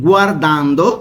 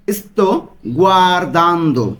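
First: Said in the usual way. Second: Slow, syllable by syllable গুয়ারদান্দো; slow pronunciation demo. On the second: Shown as a demonstration. Teacher drilling students on গুয়ারদান্দো, slow and careful. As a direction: stretch out গুয়ারদান্দো, gwar-DAN-do, for learners to copy. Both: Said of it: "উচ্চারণগুলো কিন্তু আপনারা ভালো মতো খেয়াল করবেন".

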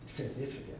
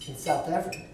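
First: Imitated South African accent, softer; South African accent as a quiet aside. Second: Said in the usual way. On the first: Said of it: "my best South African accent".

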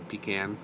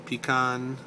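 First: "pecan" with a flat nasal a on the end; pee-can. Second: "pecan" with a long ee then an open ah; pee-can. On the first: Reading the dialect word list, pecan the second way. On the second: Reading the dialect word list, pecan the first way. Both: Shown as a demonstration.

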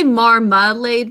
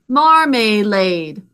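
First: "marmalade" said naturally, the middle syllable reduced to a short uh. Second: "Marmalade" sounded out slowly, the middle syllable given a full A as in "made". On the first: Teacher showing how "marmalade" is really said, with a reduced middle. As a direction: say "marmalade" the everyday way, with a quick unstressed middle. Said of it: "because that middle syllable is unstressed". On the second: Teacher sounding out "Marmalade" for the class, slow and syllable by syllable. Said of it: "Can you sound it out with me?". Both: Shown as a demonstration.

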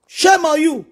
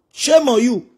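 First: Higher, pointed rebuke; scolding the boasters from higher up; rising rebuke. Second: Said in the usual way. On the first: Real, not acted. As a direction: throw the shame at them. Louder repeated scolding.

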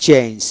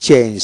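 Both takes have the same delivery.

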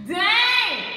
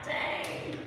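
First: High, loud drawn-out dang; loud stunned outcry. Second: Soft, barely voiced dang; stunned reaction. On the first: Acted. Churchgoer stung by God's correction, loud outcry. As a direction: cry it out like a direct hit. Repeats the reaction, now loudly. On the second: Churchgoer stung by God's correction, hushed and stunned. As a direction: let it out under the breath.

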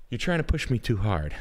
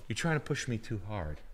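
First: "You're trying to push me too hard" said louder, leaning on "trying"; louder protest. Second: Said in the usual way. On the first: Shown as a demonstration. Protesting to the friend's impression request, louder.

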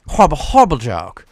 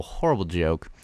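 First: Mock disgust. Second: Said in the usual way. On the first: Real, not acted. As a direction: repeat it with hammed-up disgust. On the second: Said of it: "that's a horrible".

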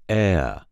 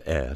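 First: "eh" drawn out into a gliding diphthong; Alabama diphthong. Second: Said in the usual way. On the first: Shown as a demonstration. Coach showing the changed sound, "eh" as Alabama diphthong. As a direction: stretch "eh" slowly into two stages. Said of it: "which turns to the diphthong eh". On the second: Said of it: "another eh sound".

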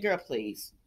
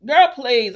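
First: Put-on low, soft brush-off of Girl, please; dismissive girl please. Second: Put-on Girl, please said louder, punching Girl. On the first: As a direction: say Girl, please low and quiet, waving it away. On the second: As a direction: belt out Girl, please with full attitude. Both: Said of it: "And I said".

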